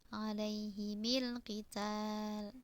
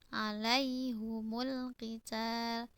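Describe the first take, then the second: First: The vowels around the h and m are i. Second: The vowels around the h and m are u. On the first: This is one school's reading of the phrase. "dikasrohkan keduanya" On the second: This is another school's reading of the phrase. "Hamzah dan Al-Kisai membacanya dengan mendommahkan hak"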